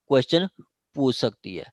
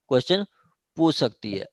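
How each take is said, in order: Both takes have the same delivery.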